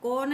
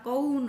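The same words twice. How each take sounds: First: कौन said as "kon" with a plain O; wrong vowel. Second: कौन with a clear gliding "au", as "ka-un"; full au vowel. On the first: Teacher showing what not to say, कौन as "kon". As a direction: flatten the diphthong of कौन to a single O. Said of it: "नहीं बोलना". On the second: Teacher correcting pupils on कौन, clear au diphthong. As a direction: open कौन from A into U. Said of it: "औ की मात्रा है ना". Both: Shown as a demonstration.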